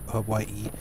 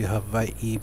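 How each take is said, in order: First: Hawaii is said the common English way. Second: Hawaii is said the native Hawaiian way. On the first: "most uh, people pronounce it ha Hawaii" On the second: "it's actually supposed to be Hawaii"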